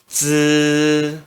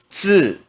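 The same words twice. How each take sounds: First: The pitch stays high and level. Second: The pitch falls sharply from high. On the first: "no primeiro tom se pronuncia z" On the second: "E no quarto tom"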